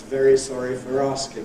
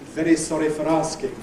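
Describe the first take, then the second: First: The r sounds are smooth approximants. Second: The r sounds are tapped. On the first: This is how people say it nowadays. "an ordinary approximant R" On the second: This is the old-fashioned way heard in old films. "tapped R"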